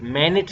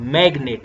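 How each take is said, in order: First: The g sound is left out before the n. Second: The g sound is pronounced before the n. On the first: The speaker calls it wrong. "मैनेट नहीं कहोगे" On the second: The speaker calls it right. "यहाँ पे आप पढ़ेंगे जैसे मैग्नेट"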